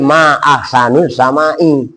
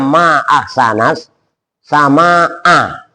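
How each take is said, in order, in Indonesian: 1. Akhiran katanya memakai vokal u dan i. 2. Akhiran katanya memakai vokal a dan a. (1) "dia ngomongnya tadi" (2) "Harusnya ngomongnya"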